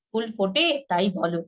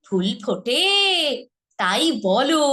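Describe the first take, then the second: First: Said in the usual way. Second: ফুল ফোটে তাই বলো with a lively, rising lilt; animated recitation; dramatic line. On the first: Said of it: "সৌন্দর্য হারিয়ে ফেলছে". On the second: Shown as a demonstration. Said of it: "এটা কিন্তু এভাবে বলেন".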